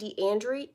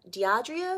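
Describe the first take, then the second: First: The name is said with an n sound. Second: The name is said without an n sound. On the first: "I'm saying your name wrong because I've been saying Deandre" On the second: "but there's no N in there"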